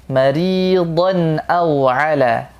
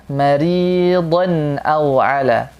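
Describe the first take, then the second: The two takes are said the same way.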